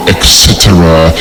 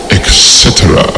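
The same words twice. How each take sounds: The two takes are said the same way.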